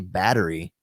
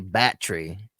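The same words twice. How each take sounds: First: It is said in the speaker's own accent. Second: It is said in a West River accent.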